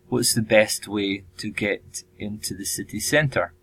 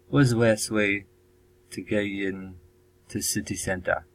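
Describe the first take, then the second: First: It is said with a standard English accent. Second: It is said with a Chinese-influenced accent. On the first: "the simplified version is" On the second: "my bad Chinese pronunciation or accent there"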